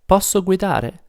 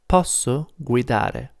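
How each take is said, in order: First: It is said with question intonation. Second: It is said with statement intonation.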